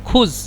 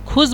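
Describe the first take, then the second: First: The word ends with a z-like sound. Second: The same.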